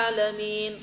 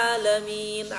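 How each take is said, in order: Both takes have the same delivery.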